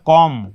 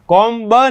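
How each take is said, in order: First: The final B sound is silent. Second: The final B sound is pronounced. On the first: The speaker calls it right. "ये पढ़ा जाएगा कॉम" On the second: The speaker calls it wrong. "कॉम ब नहीं"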